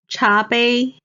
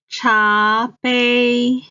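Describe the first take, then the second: First: Said in the usual way. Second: Stretched teaching 茶杯, rising 茶, level 杯; second, first tone. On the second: Shown as a demonstration. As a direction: say 茶杯 syllable by syllable, rising then level. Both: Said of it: "茶 is the second tone".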